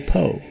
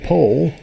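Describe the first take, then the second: First: The final L is dropped, Cahokian style. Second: The word ends with a clear L sound.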